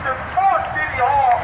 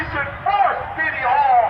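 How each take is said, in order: Both takes have the same delivery.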